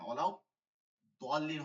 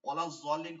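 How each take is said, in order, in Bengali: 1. শেষ শব্দে d-এর মতো ব্যঞ্জন আছে। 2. শেষ শব্দে z-এর মতো ব্যঞ্জন আছে। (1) "হবে" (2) "কখনো হবে না"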